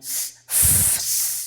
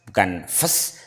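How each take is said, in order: First: The f sound is drawn out softly. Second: The f sound is cut short and abrupt. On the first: The speaker calls it right. "dipanjangkan ... Lembut, lembut karena sukun itu lembut" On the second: The speaker calls it wrong.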